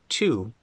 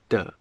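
First: The word starts with a clear T sound. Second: The word starts with a soft D sound. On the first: "The word to" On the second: "becomes de"

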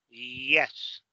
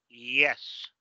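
The two takes are said the same way.

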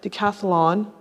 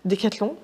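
First: The name is said with an English pronunciation. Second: The name is said with a French pronunciation. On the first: "I'm not sure I'm going to pronounce it right" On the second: "the way that you guys pronounce it, Decathlon for the French people"

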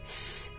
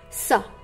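First: A bare hissing sound with no vowel after. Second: A hissing sound followed by a short vowel. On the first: The speaker calls it right. "S makes s sound" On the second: The speaker calls it wrong. "not sa. It's wrong of saying sa"

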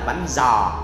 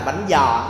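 First: It is said in a non-Southern standard accent. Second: It is said in a Southern Vietnamese accent. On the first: The speaker calls it right. "Thật ra gọi đúng á là" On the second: The speaker calls it wrong. "nó là theo giọng miền Nam của Gấu thôi"

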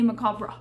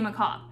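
First: The word ends with an R sound. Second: The word ends without an R sound. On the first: "I try to put the R at the end" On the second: "they just say macabre"

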